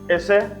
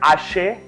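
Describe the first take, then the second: First: It is a clipped form of the full word. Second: It is the regional form with a different opening vowel. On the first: Some people shorten the usual form. "some people have shorted" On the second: This is how people from one particular region say it. "You go to uh, Abeokuta side, they'll say ashe"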